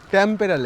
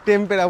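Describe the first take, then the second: First: The first vowel sounds like 'a' in cat. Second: The first vowel sounds like 'e' in bed. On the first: The speaker calls it right. "ট্যাম্পেরা lake" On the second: The speaker calls it wrong. "একটু ভুল pronunciation করছিলাম"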